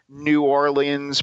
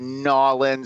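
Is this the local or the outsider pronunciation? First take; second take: outsider; local. First: It is said the way outsiders pronounce it. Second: It is said the way locals pronounce it. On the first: The speaker is not from there. "Everyone else says New Orleans" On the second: The speaker is from there. "if you actually come from there, you have to say Nawlins"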